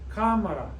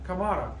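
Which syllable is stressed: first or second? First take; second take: first; second. First: The stress is on the first syllable. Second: The stress is on the second syllable. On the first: The speaker calls it right. "Accent on the A" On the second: The speaker calls it wrong. "it should be pronounced like Kamara"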